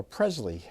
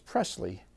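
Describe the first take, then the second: First: Presley with a buzzed Z, PREZ-lee; Presley with Z in place of S; Z pronunciation. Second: Presley with a hissed S, PRESS-lee; Presley beginning like "press"; soft S pronunciation. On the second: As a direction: say Presley with an unvoiced S. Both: Shown as a demonstration. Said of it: "So I'm going with both".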